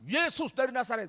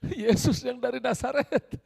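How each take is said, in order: First: It is said forcefully and aggressively. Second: It is said hesitantly and fearfully. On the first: The speakers are confident and hostile. "Dengan senjata" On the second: The speakers are afraid they have the wrong man.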